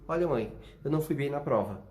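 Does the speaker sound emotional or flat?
flat. It is said flatly, with no emotion. Nothing lies beneath the words. The speaker calls it wrong. "Sem emoção nenhuma, sem reação nenhuma de subtexto"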